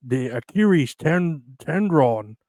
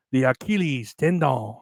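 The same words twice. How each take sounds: First: Retried mock accent, "Achilles" said with an r for the l; second try at a put-on accent. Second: Mock foreign accent that drifts into French; a failed mock accent sounding French; put-on accent that comes out French. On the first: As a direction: fix the accent and say "tendron", still slightly French. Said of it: "That still sounds a little, uh, French". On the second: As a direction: aim for an Asian accent and land on French. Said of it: "I was sounding French".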